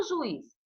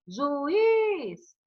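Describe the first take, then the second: First: Said in the usual way. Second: "Juiz" with IZ held long and high; teacher sounding out "Juiz", leaning hard on a drawn-out IZ; stressed final syllable. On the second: Shown as a demonstration. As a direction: stretch the last syllable of "Juiz" to show the stress. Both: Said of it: "qual é a tônica?".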